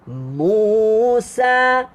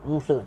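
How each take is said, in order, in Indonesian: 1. Kedua vokal ditahan panjang dan dipanjangkan. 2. Kedua vokal diucapkan pendek, seperti dalam percakapan sehari-hari. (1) "mu panjang, sa panjang" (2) "macam kita baca, sebut nama orang biasa lah. Musa, tak mau"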